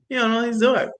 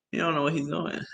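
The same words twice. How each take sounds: First: Said in the usual way. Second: Put-on much softer, under the breath, like kids whispering in class; hushed kids' quote. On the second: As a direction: mutter it softly as the kids do. Kids mocking the teacher.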